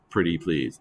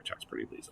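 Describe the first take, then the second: First: Said in the usual way. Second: Whispered under the breath. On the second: Shown as a demonstration. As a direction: whisper it as an aside. Joke repeated under breath.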